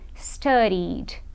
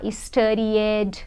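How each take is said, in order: First: The ending is said as only a D sound. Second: The ending is said as an extra syllable. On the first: The speaker calls it right. "Eu pulo direto para o D na hora de pronunciar" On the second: The speaker calls it wrong. "eu não vou falar studied"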